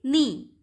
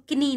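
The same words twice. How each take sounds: First: "नी" loud, beginning straight on the n; silent K. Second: "किनी" with an audible k before the n; K wrongly sounded. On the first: Teacher giving the right way to say knee, "नी" with silent K. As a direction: say "नी" firmly, no k sound. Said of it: "क्या बोलेंगे?". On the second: Teacher showing what not to say, "किनी" with K pronounced. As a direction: say "किनी", voicing the K. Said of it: "इसको किनी नहीं बोलोगे आप". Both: Shown as a demonstration.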